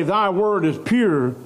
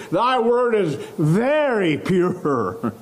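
First: Said in the usual way. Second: "very" drawn out and leaned on, slow; slow it down and press hard on "very"; stress on very. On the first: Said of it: "doesn't just say". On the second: Shown as a demonstration. Preacher reading the psalmist's words, stress on "very". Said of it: "He says".

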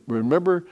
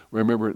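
First: Remember lifted higher, set apart from the rest; stress on Remember. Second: Said in the usual way. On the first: Shown as a demonstration. Preacher correcting himself to the true reading, stressing Remember. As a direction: lean up into Remember as the real point. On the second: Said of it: "notice he didn't say".

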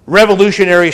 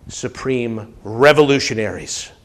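First: Revolutionaries cried out high and loud; fiery revolutionary speech. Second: Said in the usual way. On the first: Shown as a demonstration.

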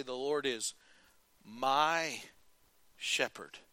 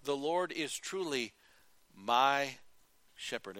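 First: Sincere low confession of faith; low sincere declaration. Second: Slow with pauses on my and shepherd; earnest slow confession; slow sincere declaration. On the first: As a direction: say it slowly with pauses. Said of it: "Can you say". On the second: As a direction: let each word land. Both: Shown as a demonstration.

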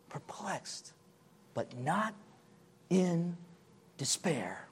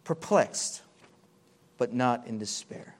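First: Hushed whisper of the verse; softer whispered repeat. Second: Said in the usual way. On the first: Acted. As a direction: breathe the words like a secret. Repeating Paul's words softly.

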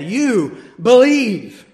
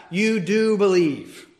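First: "You believe" slow and louder, firm order, stress on "believe"; command. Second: "You do believe" said slowly, calm, with stress on "do"; statement of fact. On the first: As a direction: give it as an order, hitting "believe". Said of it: "Imperative is a statement of command". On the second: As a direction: state it as plain fact, leaning on "do". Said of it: "Indicative is a statement of fact". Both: Shown as a demonstration.

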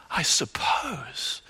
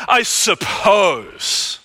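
First: Slow, breathy whispered I suppose; preacher whispering Simon's hedge back. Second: Slow, ringing shout of I suppose; preacher echoing Simon's words to the congregation; mocking shout. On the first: Acted. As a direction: hush it as if exposing a secret. Echoes same hedge in whisper. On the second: Mocking echo of Simon's hedge.

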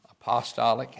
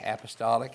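First: "apostolic" with the stress moved onto POS; stress on second syllable. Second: Said in the usual way. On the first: Shown as a demonstration. Teacher offering another pronunciation to the class, apostolic stressed on POS. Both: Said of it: "however you want to emphasize that syllable".

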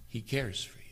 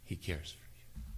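First: Soft, overcome with emotion; softly, barely holding it together; choked up quietly. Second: A broken whisper. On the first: Preacher overwhelmed telling his flock: quiet and moved. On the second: Preacher too moved to voice it: whisper. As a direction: breathe it out, emotion taking over. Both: Real, not acted. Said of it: "I can't say this and do it justice".

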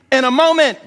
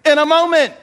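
First: Said in the usual way. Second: Laughing. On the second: Shown as a demonstration. Repeated with laugh, higher.

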